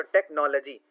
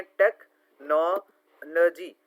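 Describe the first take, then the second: First: Said in the usual way. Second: "टेक्नोलॉजी" very slow, टेक, नो, ल-जी with gaps; syllable by syllable. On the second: Shown as a demonstration. Teacher demonstrating syllables to students, "टेक्नोलॉजी" slowly broken up. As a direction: break "टेक्नोलॉजी" into separate beats. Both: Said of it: "तोड़ तोड़ के word को पढ़ना".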